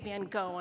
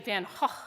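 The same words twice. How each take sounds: First: The name is said in an American style. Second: The name is said in a Dutch-like style. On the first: The speaker calls it wrong. "it's okay to say Van Gogh in America" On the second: The speaker calls it right. "Van Gogh is really the better pronunciation"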